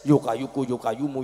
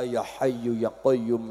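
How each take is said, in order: First: It is said hurriedly, with slurred words. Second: It is said slowly and clearly.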